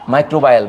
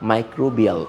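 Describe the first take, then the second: First: The third syllable sounds like 'bye'. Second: The third syllable sounds like 'bee'. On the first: The speaker calls it wrong. "অনেক বইতে মাইক্রোবায়াল লেখা বাংলাতে" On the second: The speaker calls it right. "রিয়াল উচ্চারণটা হবে মাইক্রোবিয়াল"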